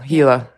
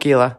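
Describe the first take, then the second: First: Gila is said with the local pronunciation. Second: Gila is said with the Australian pronunciation. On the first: The speaker calls it right. "Gila, not Gila" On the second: The speaker calls it wrong. "It's an Australian thing. We call it Gila"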